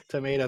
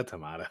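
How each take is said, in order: First: "tomato" said as to-MAY-to with a long ay vowel; tomayto. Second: "tomato" said as to-MAH-to with an open ah vowel; tomahto. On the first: Joking with a friend that potato-tomato, it doesn't matter, tomayto. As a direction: stretch out "tomato" with a bright ay sound, to-MAY-to. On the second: Finishing the tomayto-tomahto joke to a friend, tomahto. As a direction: drop into a softer "tomato" with a broad ah, to-MAH-to. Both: Shown as a demonstration. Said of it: "T-, tomato, tomato".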